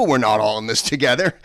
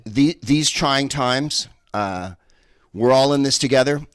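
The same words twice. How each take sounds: First: We're NOT all in this together, punched and louder; stress on not. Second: Sing-song cliché, ironic lift on all; mock cliché. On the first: Comic correcting the slogan to the crowd, emphatic. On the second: Comic quoting the slogan to the crowd, mock. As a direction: parrot the slogan mockingly. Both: Shown as a demonstration. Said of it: "hell no".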